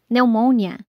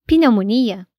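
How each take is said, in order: First: "pneumonia" in English as "newmonia", silent P. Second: "pneumonia" in Portuguese, as "pinomonia" with the P sounded. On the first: Teacher showing the English "pneumonia" with a silent P. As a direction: drop the P in "pneumonia" and start on the N. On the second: Teacher contrasting the Portuguese "pneumonia" with the P sounded. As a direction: say "pneumonia" the Brazilian way, P audible. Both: Shown as a demonstration. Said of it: "em inglês".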